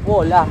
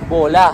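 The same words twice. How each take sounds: First: The word begins with a W sound. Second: The word begins with a V sound. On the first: This is how Filipinos read it. "pag tayo mga Pilipino, ang basa natin dyan" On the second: This is how the locals read it. "Kasi yung W nga nila rito, V. So pag binasa nila"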